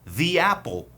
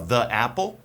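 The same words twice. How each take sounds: First: The article has a long 'ee' vowel. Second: The article has a short 'uh' vowel. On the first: "antes de uma palavra que começa com um som de vogal, você usa the" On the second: "Tem gente que fala the apple? Tem sim, não tem problema"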